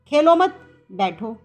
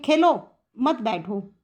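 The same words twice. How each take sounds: First: The pause comes after 'mat'. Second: The pause comes after 'khelo'.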